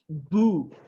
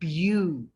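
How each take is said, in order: First: The syllable has a plain 'oo' vowel. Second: The syllable has a 'yoo' glide before the vowel. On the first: The speaker calls it wrong. "That is not boo" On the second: The speaker calls it right. "but that is bew"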